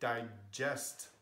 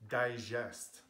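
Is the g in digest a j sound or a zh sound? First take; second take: j sound; zh sound. First: The g is a hard j sound, as in jam. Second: The g is a soft French zh sound. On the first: The speaker calls it right. "So G can be G and J" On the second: The speaker calls it wrong. "you can't say digest. That is a French pronunciation of G"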